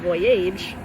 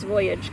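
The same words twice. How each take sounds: First: The ending sounds like the word 'age'. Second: The ending sounds like a short 'idge'. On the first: This is how the spelling rule would predict it. "probably should be voyage" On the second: This is how the word is actually said. "but it's voyage"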